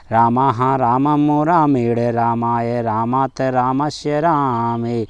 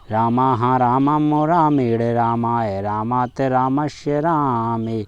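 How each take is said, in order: The two takes are said the same way.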